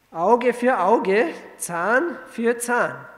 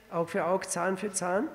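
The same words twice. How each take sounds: First: Slow, loud and raised, each word weighed; solemn scripture quote. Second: Said in the usual way. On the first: Shown as a demonstration. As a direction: proclaim the old law word by word. Preacher quotes the law solemnly. (langsam und laut betont zitiert)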